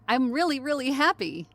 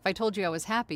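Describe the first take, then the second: First: It is said with exaggerated, lively happiness. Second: It is said flatly, without clear happiness.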